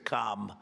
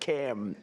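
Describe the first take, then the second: First: It is said with the broad vowel of 'calm'. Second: It is said with the short vowel of 'cam'. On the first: "as opposed to Calm" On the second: "It's Cam"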